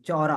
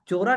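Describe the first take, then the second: First: The first vowel is an open aw sound. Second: The first vowel is a closed o sound. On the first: The speaker calls it right. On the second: The speaker calls it wrong. "चोरा नहीं है ये"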